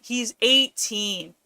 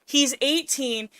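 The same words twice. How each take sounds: First: "eighteen" slow and leaned on; stress on eighteen. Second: "He's" pitched up and punched; stress on he's. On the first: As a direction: stretch out "eighteen" very slowly. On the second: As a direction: hit "He's" hard, then fall. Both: Real, not acted. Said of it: "He's eight fucking teen".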